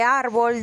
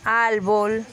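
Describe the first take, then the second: First: The consonant after the first vowel is an r. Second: The consonant after the first vowel is an l. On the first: "en el caso de árbol" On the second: "la sustitución de palabras que se escriben con R, cambian a L"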